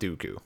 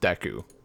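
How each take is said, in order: First: The first syllable sounds like 'doo'. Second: The first syllable does not sound like 'doo'. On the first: The speaker calls it wrong. "I would pronounce it Dooku" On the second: The speaker calls it right. "there's no way this could possibly pr- be pronounced Deku"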